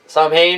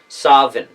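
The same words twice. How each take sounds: First: The middle has no W or V sound. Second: The middle has a W or V sound. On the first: This was probably never said long ago. "which I don't think was ever really a pronunciation back in the day" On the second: This is how it was said long ago. "with a W and a V"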